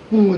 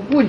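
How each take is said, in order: First: The syllable is said in the departing tone. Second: The syllable is said in the level tone. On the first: The speaker calls it right. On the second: The speaker calls it wrong.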